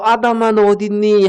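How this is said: It sounds warm and affectionate.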